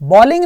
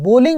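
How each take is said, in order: First: The first vowel sounds like 'aw' in saw. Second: The first vowel sounds like 'oh' in go. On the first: The speaker calls it wrong. "बॉलिंग नहीं बोलते" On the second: The speaker calls it right. "बोलिंग बोलते हैं"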